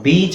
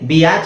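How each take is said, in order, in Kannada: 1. ಸ್ವರ ಒಂದು ಉದ್ದ ee ಶಬ್ದ. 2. ಸ್ವರ ಎರಡು ಪ್ರತ್ಯೇಕ ಶಬ್ದಗಳಾಗಿ ಒಡೆಯುತ್ತದೆ. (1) "ನಾವು ಬೀಚ್ ಅಂತಾನೆ ಹೇಳ್ತೀವಿ" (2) "ಬಿ ಆಚ್ ಅಂತ ಹೇಳಲ್ಲ"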